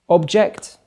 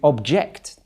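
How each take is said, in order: First: The stress is on the first syllable. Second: The stress is on the second syllable. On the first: It is a noun meaning a thing. "we all know what an object is, a thing" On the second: It is a verb meaning to voice disagreement. "to object to something, used as a verb"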